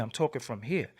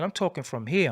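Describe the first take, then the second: First: Softer, lower echo of "I'm talking from here"; softer repeat. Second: Said in the usual way. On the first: Shown as a demonstration.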